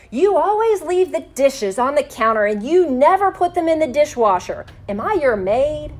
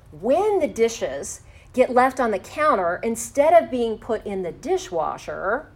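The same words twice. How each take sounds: First: Higher and louder, blaming and exasperated; a raised, indignant you-statement; accusing complaint. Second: Said in the usual way. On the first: Shown as a demonstration. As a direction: hurl it like an accusation at your partner. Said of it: "will pull up the defensive walls". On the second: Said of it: "For example".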